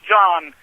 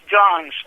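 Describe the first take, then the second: First: The name ends without an s sound. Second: The name ends with an s sound. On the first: The speaker calls it wrong. "many Baltimoreans even mispronounce his name. They think that it is John" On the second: The speaker calls it right. "No, it is Johns"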